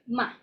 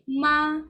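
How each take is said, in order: First: The syllable is said short and clipped. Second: The syllable is held high and level. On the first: "short a bit" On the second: "very high and flat"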